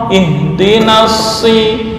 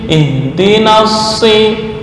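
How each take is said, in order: No difference in how they are said.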